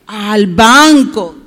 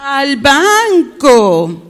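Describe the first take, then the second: First: Slow, loud call-and-response answer; drawn-out prompt. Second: Very slow, sing-out BANCO; extra drawn-out confirmation. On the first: Teacher prompts the children to answer "al banco", drawn-out and loud. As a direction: stretch BANCO out loud for repeating. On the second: Teacher confirms the child's answer, very drawn-out. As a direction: echo it back, hugely stretched. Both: Shown as a demonstration.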